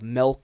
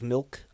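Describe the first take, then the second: First: The vowel sounds like an e. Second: The vowel is the standard i sound.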